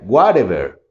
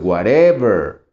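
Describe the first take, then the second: First: The stress is on the first syllable. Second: The stress is on the middle syllable. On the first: "Y si marcara la primera" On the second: "Si marcamos la de en medio"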